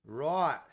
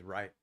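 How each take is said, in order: First: "Right" as a broad Aussie "roit"; mock Australian drawn-out "Right"; Australian accent. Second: Said in the usual way. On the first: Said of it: "my horrible Australian accent". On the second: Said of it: "That's pretty much all I can say".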